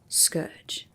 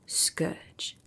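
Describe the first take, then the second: First: It is said with strong force. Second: It is said plainly, without extra force.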